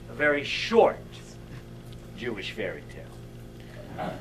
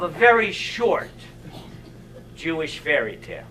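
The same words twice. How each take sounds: First: Hushed repeat. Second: Said in the usual way. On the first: Shown as a demonstration. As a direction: drop it to a low, quiet aside. Repeats the title for effect.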